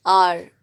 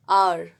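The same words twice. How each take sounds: First: आर said as "aar", silent h, no v; आर pronounced with the "aa" sound only; correct hour. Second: आवर said as "aa-var", sounding the v; आवर pronounced letter by letter, "aa-var"; spelling-style hour. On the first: Teacher gives students the right आर, slow. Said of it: "आर में जो है आ का sound". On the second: Teacher shows the spelled-out आवर to students, careful. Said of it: "जैसे हम बोलते हैं आवर". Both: Shown as a demonstration.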